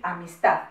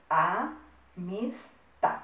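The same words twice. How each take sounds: First: Said in the usual way. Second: AMISTAD very slowly as a, mis, tad; syllable by syllable. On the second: Shown as a demonstration. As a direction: break AMISTAD into three spaced syllables. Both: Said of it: "contamos las sílabas".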